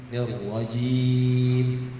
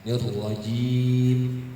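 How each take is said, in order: No difference in how they are said.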